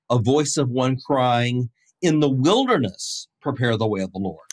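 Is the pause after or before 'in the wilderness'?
before. The pause comes before 'in the wilderness'.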